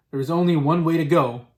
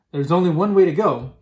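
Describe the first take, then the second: No difference in how they are said.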